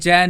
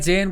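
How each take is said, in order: First: The vowel is an open, broad ai sound. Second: The vowel is a close, pure e sound. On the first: This is the speaker's own pronunciation. "चैन ही कहता हूँ" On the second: This is the usual pronunciation. "मैं चेन को"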